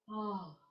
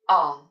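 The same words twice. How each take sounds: First: The vowel begins with a soft, gentle onset. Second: The vowel begins with a hard, abrupt onset. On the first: The speaker calls it right. "but ah" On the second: The speaker calls it wrong. "with a consonant of a hard ah"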